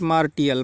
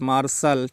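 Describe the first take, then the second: First: The middle is said with a 't' sound. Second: The middle is said with an 'sh' sound. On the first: The speaker calls it wrong. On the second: The speaker calls it right.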